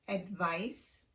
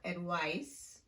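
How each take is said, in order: First: The middle consonant is a clear V sound. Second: The middle consonant is a W-like sound. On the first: The speaker calls it right. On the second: The speaker calls it wrong.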